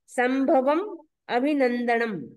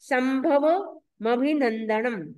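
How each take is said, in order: First: The 'm' ends the first word before a break. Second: The 'm' is carried over to start the second word. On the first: The compound is split into its separate words. "इसका संधि विच्छेद करेंगे तो क्या निकलेगा?" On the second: This is how it is recited aloud. "लेकिन हमें बोलते समय बोलना है"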